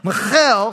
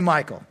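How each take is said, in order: First: The name is said with a Hebrew pronunciation. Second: The name is said like English Michael. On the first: It is the woman's name. The speaker calls it right. "you got to say it with the Hebrew accent" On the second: It sounds like a man's name. The speaker calls it wrong. "You can't say Michael, because if you say Michael, it sounds like David married a dude"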